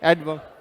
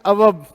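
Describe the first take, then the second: First: The d sound is clearly pronounced. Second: The d sound is dropped from the word. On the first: The speaker calls it right. "यहां silent नहीं रखना है" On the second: The speaker calls it wrong. "अवब नहीं है"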